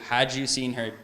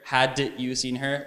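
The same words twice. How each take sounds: First: The d and y blend into a j sound. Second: The d and y sounds stay separate. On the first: The speaker calls it right. "Like give me any two words" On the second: The speaker calls it wrong. "We will never say"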